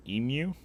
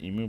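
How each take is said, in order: First: Emu said with an accent, a bit higher and louder; emu in a foreign accent. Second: Said in the usual way. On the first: Shown as a demonstration. Mocking the chatter's accent on Emu. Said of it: "just emu, but with an accent". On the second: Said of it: "but with an accent".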